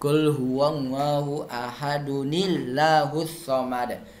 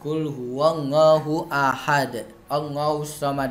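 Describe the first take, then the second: First: It runs on, linking ahad into allahus as ahadunillahus. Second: It stops after ahad before the next verse.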